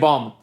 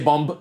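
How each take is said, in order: First: The final b is silent. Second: The final b is pronounced. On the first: The speaker calls it right. "they say bomb" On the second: The speaker calls it wrong. "people don't say bomb"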